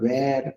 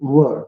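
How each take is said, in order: First: The vowel is long and open, like 'wair'. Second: The vowel is short and central, like 'wur'. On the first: The speaker calls it wrong. "काही जण उच्चार वे वेअर किंवा वेअर असं काहीतरी उच्चार करतात" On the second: The speaker calls it right. "तर त्याचा उच्चार काय होतोय?"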